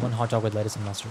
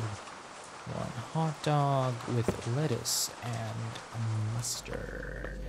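First: Said in the usual way. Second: Very slow, softer, drawn-out words; slow self-reminder. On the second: Real, not acted. Cashier memorizing a hot dog order, slowly drawn out. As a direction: stretch each word out slowly and quietly. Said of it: "I keep telling that to myself".

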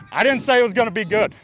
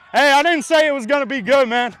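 First: Loud protest. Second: High, loud mock defense; loud indignant protest. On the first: Repeats the protest. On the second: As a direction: shout it out defensively. Defending himself loudly. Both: Real, not acted.

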